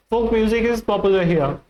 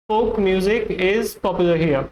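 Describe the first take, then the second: No difference in how they are said.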